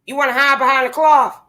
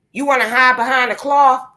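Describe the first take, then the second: No difference in how they are said.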